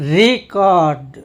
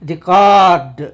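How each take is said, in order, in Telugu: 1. ఒత్తి మొదటి అక్షరం మీద ఉంటుంది. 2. ఒత్తి రెండో అక్షరం మీద ఉంటుంది. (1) "రీ దగ్గర ఎక్కువ సౌండ్ ఇస్తూ, ఎక్కువ ప్రామినెన్స్ ఇస్తూ కార్డ్ని మామూలుగా పలుకుతాం" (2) "కార్డ్ దగ్గర ఎక్కువ సౌండ్ ఇచ్చామంటే అది వెర్బుగా పనిచేస్తున్నట్టు"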